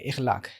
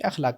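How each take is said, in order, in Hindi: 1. यह शब्द 'i' स्वर से शुरू होता है। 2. यह शब्द 'a' स्वर से शुरू होता है। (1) "उसको ज़ेर के साथ पढ़ने लग गए" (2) "राजे और सही यही है कि अखलाक कहा जाए"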